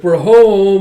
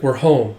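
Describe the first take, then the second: First: Loud, high, sing-out call; calling out arrival. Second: Said in the usual way. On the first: Acted. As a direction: announce it to the whole house. Second character calls out arrival.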